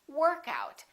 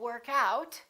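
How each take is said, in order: First: The stress falls on the first part. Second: The stress falls on the second part. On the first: It is used as a noun. "we emphasize the first part" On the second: It is used as a verb. "With phrasal verbs, we stress the second element"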